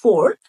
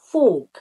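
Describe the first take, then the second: First: American accent, with the r sound pronounced. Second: British accent, with the r sound dropped. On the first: "আমেরিকানরা র sound উচ্চারণ করে, ওরা বলে" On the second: "ব্রিটিশরা বলে ফোর্ক, রটা বাদ দিয়ে বলে"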